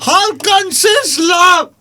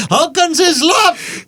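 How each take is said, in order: First: High, very slow shouted put-on voice; loud slow put-on voice. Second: High, very slow put-on voice; slow high mock voice. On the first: Repeated, louder shouted take. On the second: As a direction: stretch it out high and silly. Mock mouthful accent, slow high.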